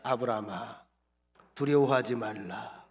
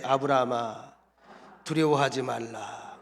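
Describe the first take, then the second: First: Said in the usual way. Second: 아브라함아, 두려워하지 말라 called out louder and slow; louder repeat. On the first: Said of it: "따라합시다". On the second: Shown as a demonstration. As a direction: say it back with more volume, slow on 두려워하지. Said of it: "더 크게".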